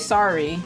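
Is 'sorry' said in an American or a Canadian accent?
American. It is said in a common American accent. "So I say sorry, which I think is pretty common, like, you know, America"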